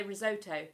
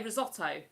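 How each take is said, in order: First: "risotto" with a long OH in the middle; American pronunciation. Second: "risotto" with a short O in the middle; British pronunciation. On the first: Streamer showing how they say it, American pronunciation. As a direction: say "risotto" as ri-ZOH-toh. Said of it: "They say risotto". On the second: Streamer showing how we say it, British pronunciation. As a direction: say "risotto" as ri-ZOT-oh. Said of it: "We say risotto". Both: Shown as a demonstration.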